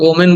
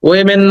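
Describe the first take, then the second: First: The first syllable sounds like 'oh'. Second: The first syllable sounds like 'way'. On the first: "আমরা এটাকে ওমেন বলি" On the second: "ওয়েমেন না"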